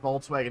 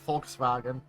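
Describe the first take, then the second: First: It is said with an English accent. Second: It is said with a German accent.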